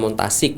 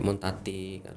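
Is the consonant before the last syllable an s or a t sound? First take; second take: s sound; t sound. First: The word is said with an s sound. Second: The word is said with a t sound.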